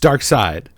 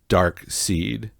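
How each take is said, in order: First: The second part sounds like 'side'. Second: The second part sounds like 'seed'. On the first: The speaker calls it right. "It's Dark Side" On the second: The speaker calls it wrong. "Why did we both think it was pronounced Dark Seed?"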